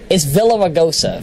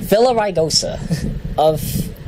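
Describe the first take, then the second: First: Villaraigosa said wrong as villa-va-gosa; mangled Villaraigosa; mispronounced name. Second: Villaraigosa said slowly, vil-la-rai-go-sa; slow careful Villaraigosa; careful pronunciation. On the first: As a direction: garble Villaraigosa with a v in the middle. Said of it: "I got my G's and my R's mixed up". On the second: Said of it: "that's a tongue twister". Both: Shown as a demonstration.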